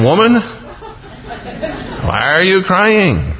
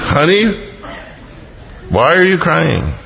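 First: High, slow, laughing angel question; a pure angel asking, puzzled; innocent angel. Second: Higher mock husband asking; an innocent husband who has no idea; clueless husband. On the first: Retold or imitated. Angel asking the weeping woman, high and laughing. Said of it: "only an angel can ask". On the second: Husband asking his crying wife, lightly mocked. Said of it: "A husband can't ask".

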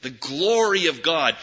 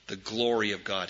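First: Said in the usual way. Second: The refrain said softly, almost to himself; soft, reverent murmur; quiet. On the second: Shown as a demonstration. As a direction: let it drop to a soft murmur. Refrain repeated, dropped low.

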